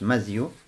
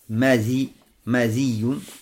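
First: No vowel follows the dh sound. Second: An i vowel follows dh, with a doubled y. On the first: "с фатхи буквой мим и с сукуном заль" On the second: "ставится заль с буквой, с кесрой"

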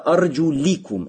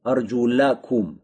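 First: The vowel before -kum is an 'i'. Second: The vowel before -kum is an 'a'. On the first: The feet are to be wiped. "с кесрой" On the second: The feet are to be washed. "вот с фатхой, мансу, винительным падежем"

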